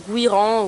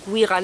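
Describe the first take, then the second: First: First try at "Guiran", tentatively offered; first pronunciation attempt. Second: "Guiran" pronounced differently, as an alternative; alternative pronunciation. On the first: Vlogger unsure of the brand name, first pronunciation attempt. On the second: Vlogger unsure of the brand name, alternative pronunciation. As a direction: offer "Guiran" as the other possible reading. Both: Shown as a demonstration. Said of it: "je sais pas trop comment on dit".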